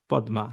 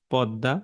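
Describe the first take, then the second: First: পদ্মা said as pod-ma, every letter sounded; spelling pronunciation. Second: পদ্মা said as podda, the m silent and d doubled; spoken pronunciation. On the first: Teacher sounding পদ্মা letter by letter as spelled. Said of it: "বানান লিখি প দয়াময় আকার". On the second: Teacher showing how পদ্মা is really pronounced. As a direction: say পদ্মা the way people speak it, podda. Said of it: "বলি হচ্ছে". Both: Shown as a demonstration.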